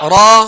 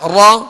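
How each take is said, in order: The two takes are said the same way.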